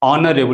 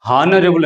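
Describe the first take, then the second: First: The word starts with a vowel sound. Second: The word starts with an h sound. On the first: The speaker calls it right. "ఇది ఆనరబుల్ అని పలకాలి" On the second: The speaker calls it wrong. "చాలా మంది ఇది హానరబుల్ అని పలుకుతారు"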